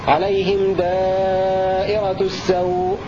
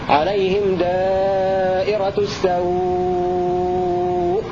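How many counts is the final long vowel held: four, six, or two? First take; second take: two; six. First: The final vowel is held for two counts. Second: The final vowel is held for six counts. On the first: "حركتين" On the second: "ست حركات"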